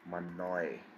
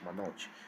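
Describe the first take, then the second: First: The final consonant sounds like English 'y'. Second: The final consonant sounds like English 'j'. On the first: "People pronounce my name as Manoy" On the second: "it is not going to be pronounced as Manoj"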